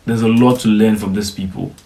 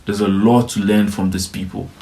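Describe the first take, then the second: No difference in how they are said.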